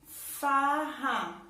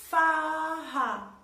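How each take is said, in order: First: Farra said whole, throaty R, first syllable stressed; blended back together. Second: Farra louder, two clear syllables far-ra; two-syllable demo. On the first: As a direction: join the sounds into Farra. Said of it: "sai lá da garganta". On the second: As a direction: mouth moves twice on farra. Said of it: "movo a minha boca duas vezes". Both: Shown as a demonstration.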